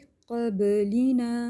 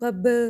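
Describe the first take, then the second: First: The b sound is released lightly and normally. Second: The b sound is released with heavy pressure. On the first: The speaker calls it right. "Normal" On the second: The speaker calls it wrong. "बहुत ज़्यादा इसको प्रेशर नहीं देना, क़ब इस तरह भी नहीं करना"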